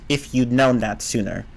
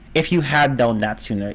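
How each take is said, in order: First: The word 'had' is contracted to a short d. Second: The word 'had' is said in full. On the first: "even if you don't hear the D sound" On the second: "I just say had"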